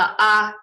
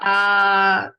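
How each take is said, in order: First: The vowel is kept short. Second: The vowel is held long. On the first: "and opposed to the ah" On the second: "So that's just to prolong the oo sound, or the ah"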